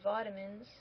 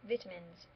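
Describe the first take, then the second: First: It is said in an Australian pronunciation. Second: It is said in an English pronunciation.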